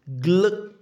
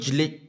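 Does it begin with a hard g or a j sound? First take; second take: hard g; j sound. First: It begins with a hard g sound. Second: It begins with a j sound. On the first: The speaker calls it right. "This is gl" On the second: The speaker calls it wrong. "This is not jli"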